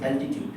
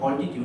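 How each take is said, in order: First: The first vowel sounds like 'cat'. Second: The first vowel sounds like 'all'. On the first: The speaker calls it right. "That is অ্যালটিটিউড" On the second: The speaker calls it wrong. "That is not অল্টিটিউড"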